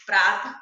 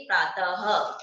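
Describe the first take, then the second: First: प्रात loud, stopping on the त; without visarga. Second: प्रातः ending in an audible ह, "praa-ta-ha"; with visarga. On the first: Teacher showing प्रात read without visarga. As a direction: end प्रात on त, no ह sound. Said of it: "बिना विसर्ग के पढ़ के दिखाऊं". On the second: Teacher showing प्रातः read with visarga. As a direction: add a clear ह after त in प्रातः. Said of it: "विसर्ग लगा दूंगी तो कैसे पढ़ेंगे". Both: Shown as a demonstration.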